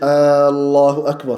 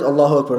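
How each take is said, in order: First: The opening vowel is stretched long. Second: The opening vowel is short.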